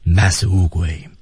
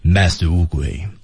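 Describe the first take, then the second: Both takes have the same delivery.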